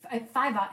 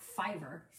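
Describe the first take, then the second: First: "fiver" said as "five-ah"; dropped-r fiver. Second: "fiver" with a sounded final r; r-ful fiver. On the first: Co-host showing what Eric taught, "fiver" as five-ah. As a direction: end "fiver" on an open ah, no r. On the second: Co-host showing the rejected way, "fiver" with hard r. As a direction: finish "fiver" on a clear r. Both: Shown as a demonstration. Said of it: "it was a fiver and not".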